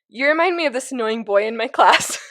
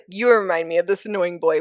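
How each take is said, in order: First: It is said while laughing. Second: It is said flatly with a straight face.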